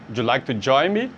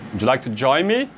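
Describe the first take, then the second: First: The words run together in one quick stream. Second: The same.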